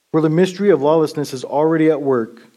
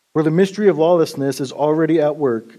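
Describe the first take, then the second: Both takes have the same delivery.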